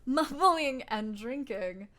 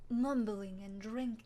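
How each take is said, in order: First: MUMBLING loud and drawn out, drinking slow; retake after accent fail. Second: Slow, tentative attempt at French accent; bad French accent. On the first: Acted. Player retrying the character's line, loud slow over-enunciation of Mumbling. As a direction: stretch out "Mumbling and drinking" loudly. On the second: Player voicing a game character, bad French accent. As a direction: try a French accent and fumble it. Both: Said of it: "I can't do a French accent".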